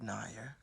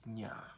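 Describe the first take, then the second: First: The name is said with a 'nair' sound. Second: The name is said with a 'nya' sound. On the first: The speaker calls it wrong. "It is not Nair" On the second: The speaker calls it right. "my name is Nya"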